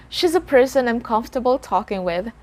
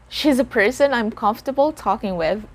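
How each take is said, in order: Both takes have the same delivery.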